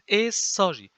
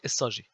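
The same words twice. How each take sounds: First: The first syllable carries a clear accent. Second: The first syllable carries no clear accent. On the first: The speaker calls it right. "it should be accented. Just an accent. Put an accent" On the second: The speaker calls it wrong.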